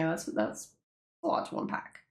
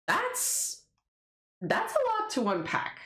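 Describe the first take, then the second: First: Hushed disbelief. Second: High disbelief. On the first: Repeating reaction. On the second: Reacting to character twist. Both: Real, not acted.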